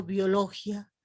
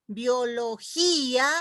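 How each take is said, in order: First: Biología mal acentuada, bio-LO-gia; diptongo incorrecto. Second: Biología con la í tónica y alargada, bio-lo-GÍ-a; hiato marcado. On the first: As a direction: quita la fuerza de la í de biología y pásala a la o. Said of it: "no digo biología". (biología como «biologia», con gia en una sílaba) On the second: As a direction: separa la í de la a en biología. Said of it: "se las pronuncia". (biología despacio, cargando la í) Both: Shown as a demonstration.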